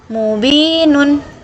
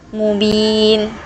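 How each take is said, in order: First: The word ends with an extra vowel and n. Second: The ending vowel and n are dropped. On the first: The reading continues without a stop. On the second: The reader stops at this word.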